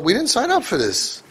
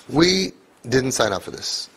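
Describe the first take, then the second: First: Higher pitched, exasperated "we didn't sign up for this"; mock parent complaint. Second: Said in the usual way. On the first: Rabbi imitating overwhelmed parents, mock exasperation.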